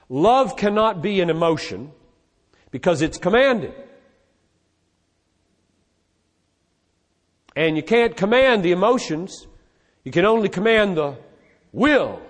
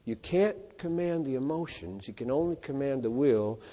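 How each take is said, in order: First: Quoting the argument. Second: Quiet musing. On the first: Retold or imitated. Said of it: "One argument said". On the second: Shown as a demonstration.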